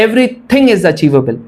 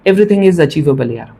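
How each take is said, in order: First: "everything is achievable" drawn out very slowly, word by word; emphatic repeat. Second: Said in the usual way. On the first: Real, not acted.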